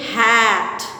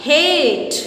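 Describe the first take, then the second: First: Hat with a short flat a; short a demo. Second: Hate with a long a that says its name; long a demo. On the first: Teacher reading the three letter word to students, short a. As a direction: say Hat with the short first sound of a. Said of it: "How can you read it?". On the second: Teacher showing students the magic E word, long a. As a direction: say hate with the second sound of a. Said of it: "so it becomes". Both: Shown as a demonstration.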